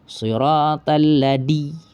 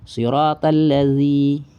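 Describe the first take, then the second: First: The consonant is a hard 'd' sound. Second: The consonant is a soft 'dh' sound.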